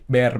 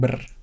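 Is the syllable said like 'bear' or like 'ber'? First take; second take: bear; ber. First: The syllable sounds like the English word bear. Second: The syllable is said with a short 'ber' sound. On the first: The speaker calls it right. "Jadi Bear" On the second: The speaker calls it wrong. "bukan Ber"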